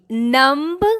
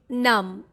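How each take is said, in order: First: The final B is sounded. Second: The final B is silent. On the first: The speaker calls it wrong. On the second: The speaker calls it right. "Last B is silent here"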